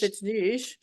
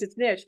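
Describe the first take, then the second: First: Niche is pronounced the French way. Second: Niche is pronounced the American way.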